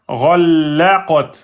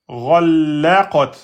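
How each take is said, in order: No difference in how they are said.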